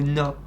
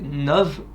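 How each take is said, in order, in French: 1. Le mot se termine sans son 'v'. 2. Le mot se termine par un son 'v'. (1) "ou pas" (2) "si on prononce vraiment le V"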